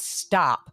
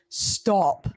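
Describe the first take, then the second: First: It is said in an American accent. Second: It is said in a British accent. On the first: "I'm going to have to speak a little American accent" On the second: "your British girlfriend's accent"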